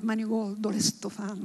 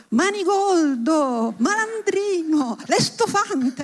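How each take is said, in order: First: Put-on quiet, fond repetition of the old words; a soft, relishing murmur; savoring softly. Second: Slow, drawn-out outraged cry, pitched higher; theatrical mock outrage, each word stretched; indignant shout. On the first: Shown as a demonstration. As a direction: roll Manigoldo and l'estofante gently, much softer. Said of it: "hanno quel suono bellissimo". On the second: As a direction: hurl old-fashioned insults from the balcony, slowly. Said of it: "gridò".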